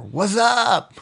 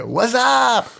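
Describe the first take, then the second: First: Higher, slangy "What's up?" tossed off; casual slang greeting. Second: Higher, louder "What's up?" repeated for emphasis; louder slang greeting. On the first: A slangy high I greeting, casually tossed "What's up?". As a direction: throw out "What's up?" like a buddy. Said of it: "things like". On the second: Repeating it for the puzzled cohost, louder and slangy. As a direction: belt "What's up?" like a buddy across a room. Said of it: "What's that? What?". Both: Retold or imitated.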